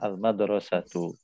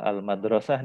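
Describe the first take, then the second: First: The word ends in a full '-atu' sound. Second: The word ends in a short '-ah' sound.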